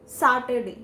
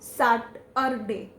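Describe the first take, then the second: First: The middle syllable has a short 'uh' sound. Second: The middle syllable has a full 'ur' sound. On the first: The speaker calls it right. "the letters U R are replaced with the sound A" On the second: The speaker calls it wrong. "not Saturday"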